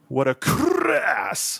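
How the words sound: It is said with heavy, exaggerated scorn.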